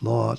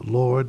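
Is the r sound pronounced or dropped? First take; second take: dropped; pronounced. First: The r sound is dropped. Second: The r sound is pronounced.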